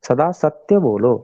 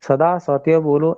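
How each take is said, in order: First: The first syllable of सत्य is pressed with weight. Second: The first syllable of सत्य is said light. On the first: The speaker calls it right. "व्यवहार में भी जब हम बोलते हैं तो ऐसे ही बोलते हैं" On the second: The speaker calls it wrong. "ऐसा कोई भी नहीं कहता"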